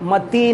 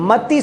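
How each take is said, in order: First: The final vowel is held long. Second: The final vowel is kept short. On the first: The speaker calls it wrong. "बड़ा नहीं, मति नहीं" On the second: The speaker calls it right. "ती छोटा है"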